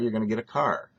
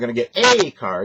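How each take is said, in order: First: The article 'a' is unstressed and reduced. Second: The article 'a' is stressed and full. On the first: The speaker calls it right. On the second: The speaker calls it wrong.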